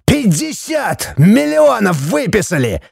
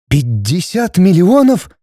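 First: High-pitched, drawn-out strained outrage; furious roar. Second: Slow, high-pitched stunned question; bewildered and frightened. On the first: Judge roaring the fine at wife, furious. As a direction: stretch out the sum in fury. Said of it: "взревел судья". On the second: Wife hearing the huge fine, bewildered and frightened. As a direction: repeat it slowly in alarm. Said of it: "растерянно и испуганно повторила Светлана". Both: A narrator's reading.

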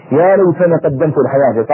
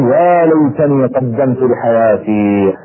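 First: Said in the usual way. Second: Slow, drawn-out cry of regret; regretful lament. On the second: Retold or imitated. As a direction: stretch out "يا ليتني" slowly, mourning the lost chance. (رثاء بطيء ونادم) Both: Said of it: "بدأ بعضهم يصيح ويقول".

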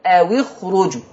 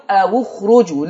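First: أو اخرجوا read "awi-khruju"; waw with kasra. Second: أو اخرجوا read "awu-khruju"; waw with damma. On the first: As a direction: join the waw to the verb with a kasra. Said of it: "حفص هيكسر الساكن الأول". (أو اخرجوا بكسر الواو) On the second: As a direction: join the waw to the verb with a damma. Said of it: "هيضم الواو". (أو اخرجوا بضم الواو) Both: Shown as a demonstration.

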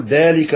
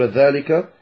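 First: "ذلك" with a plain d, as dalika; mistaken d. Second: "ذلك" with a voiced th, as dhalika; tongue between the teeth for the start of "ذلك"; correct ذ. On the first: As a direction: stop the ذ of "ذلك" into a d. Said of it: "وينطق الذال يقول ذلك". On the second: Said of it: "بدل أن يقول ذلك". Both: Shown as a demonstration.

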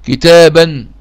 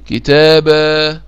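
First: "كتابا" said kitaaban, with a sounded n; loud "كتابا" with the tanween n pronounced; tanween when continuing. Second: "كتابا" said slowly as kitaabaa, no final n; slow "كتابا", tanween replaced by a drawn-out aa; pausal long vowel. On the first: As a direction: end "كتابا" on a clear -an. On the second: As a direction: stop on a long, held aa in "كتابا". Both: Shown as a demonstration. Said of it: "أقول إيه".

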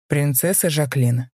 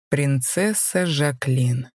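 First: Slow, low and scornful; a contemptuous knight saying her name. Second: Very slow, looming delivery of the name; slowly. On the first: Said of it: "лишь низким голосом произнёс". (низким голосом, с презрением) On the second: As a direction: draw the name out menacingly. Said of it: "медленно произнёс мужчина". (медленно, нависая) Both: A narrator's reading.

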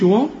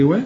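First: وا as a thick, dark 'waw'; mock mistake, rounded dark vowel in وا; wrongly heavy waw. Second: وا as a thin, fronted 'we'; light waw. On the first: Teacher shows what not to say, wrongly heavy waw. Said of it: "ما تقولش". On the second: Teacher gives the right sound, light waw. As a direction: say وا lightly, no dark vowel. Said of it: "قول لي". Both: Shown as a demonstration.

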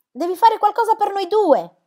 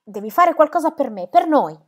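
First: Much higher, loud desperate shout; girl screaming her plea to a mother who does not answer. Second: Higher, louder pleading call; girl pleading with her mother from the next room; urgent plea. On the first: Searching house for silent mother. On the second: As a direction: beg her mother to act, pressing hard. Girl bursts home calling mother. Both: Acted.

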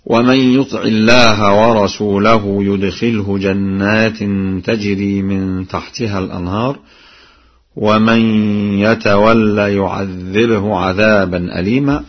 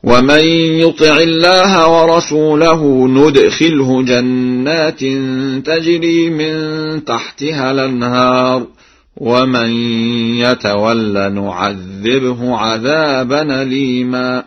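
First: Said in the usual way. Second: Slow high chant, "ندخله" and "نعذبه" starting with n; nun in both verbs. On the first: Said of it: "قرأ ورش". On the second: Shown as a demonstration. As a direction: chant it slowly, sounding n opening "ندخله" and "نعذبه". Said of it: "بالنون في الفعلين هكذا".

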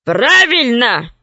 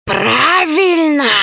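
First: Slow growled gorilla voice; growling gorilla. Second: Slow hissing serpent voice; hissing snake. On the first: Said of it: "зарычала горилла". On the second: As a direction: hiss it like a snake. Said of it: "прошипела змея". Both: Acted.

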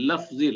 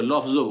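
First: লাফজি said slowly with a long Arabic a, as in the original Arabic; Arabic pronunciation. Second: লফজও with a short rounded Bengali o, the way Bengalis say it; Bengali pronunciation. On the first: Teacher reading the Arabic term to students, slow Arabic pronunciation. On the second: Teacher showing how Bengalis say the Arabic word, Bengali pronunciation. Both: Shown as a demonstration. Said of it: "বাঙালিরা একটু এভাবে লফজও বলি".

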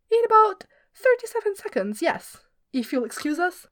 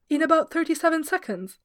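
First: Cheeky reply. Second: Mimicking the singer. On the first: Acted. Glorfindel cheeky reply to boss.

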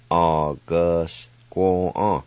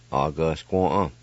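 First: August squaw drawn out very slowly, squaw falling long; slow teaching read of a Cherokee word. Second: August squaw at normal speed with a falling end; natural pace Cherokee. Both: Shown as a demonstration. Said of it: "now I'll pronounce these words".

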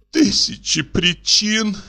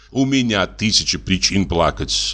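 First: High, slow, tearful sob on the words; sobbing echo. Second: Said in the usual way. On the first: A narrator's reading. Olga throwing his words back at the painter, sobbing. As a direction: echo him through a sob, much higher. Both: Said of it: "всхлипнула Ольга Ивановна".

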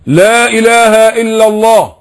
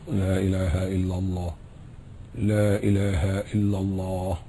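First: Slow, high and loud, lips held still; loud slow shahada. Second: Very soft, lower and slow, lips unmoving; quiet inner shahada, lips still. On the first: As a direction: proclaim it slowly and loudly without lip movement. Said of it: "بقولها بصوت عالي أوي". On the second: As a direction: say it almost silently under the breath. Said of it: "شفايفك ثابتة أهي". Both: Shown as a demonstration.

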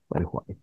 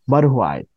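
First: Attempted deep voice. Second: Said in the usual way. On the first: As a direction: sink low and quiet, trying for his deep voice. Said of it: "Esa voz grave, weón. No la puedo hacer". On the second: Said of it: "Esa voz grave".

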